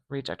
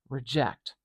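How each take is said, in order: First: The stress is on the first syllable. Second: The stress is on the second syllable.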